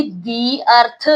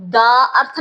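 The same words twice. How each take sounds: First: "the" said "dee" before अर्थ; long ee in "the", leading into अर्थ. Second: "the" as "duh" before अर्थ; wrong "the". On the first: Teacher shows pupils the correct reading, "the" as dee. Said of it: "इसको मैं पढ़ूंगी". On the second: Teacher shows pupils the wrong article, "the" as duh. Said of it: "नहीं बोल सकती". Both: Shown as a demonstration.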